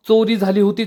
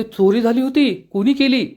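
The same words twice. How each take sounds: First: Said in the usual way. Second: चोरी झाली होती asked as a higher-pitched question; चोरी झाली होती voiced high, as a query. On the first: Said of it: "नुपूर सांगते". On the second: A narrator's reading. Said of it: "आशा विचारते".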